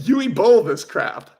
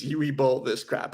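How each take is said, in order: First: Mock misreading. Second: Said in the usual way. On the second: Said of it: "Uwe Boll".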